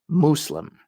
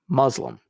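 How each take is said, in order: First: It starts like moose, with an S sound. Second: It starts like muzzle, with a Z sound. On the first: The speaker calls it right. "It should start with the sound of moose, not muzzle" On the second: The speaker calls it wrong. "This is actually an incorrect pronunciation"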